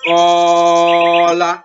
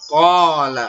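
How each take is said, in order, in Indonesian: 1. Vokal panjang dibaca terlalu panjang sekali. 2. Vokal panjang dibaca dua harakat. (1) "itu salah ya, terlalu panjang" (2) "Panjangnya cuma dua harokat"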